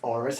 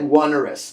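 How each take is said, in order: First: The first syllable does not sound like one. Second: The first syllable sounds like the word one. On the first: The speaker calls it right. "it's actually pronounced onerous" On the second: The speaker calls it wrong. "Looks like one-erous"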